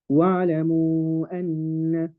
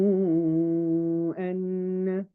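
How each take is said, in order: First: وَاعْلَمُوا read quicker, its final waw only two counts; recited with short mad. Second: وَاعْلَمُوا with the final waw held long before أَنَّ; recited with long mad. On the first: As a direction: keep the waw of وَاعْلَمُوا short and move on to أَنَّ. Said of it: "or I can say". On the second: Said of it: "I can either say". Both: Shown as a demonstration.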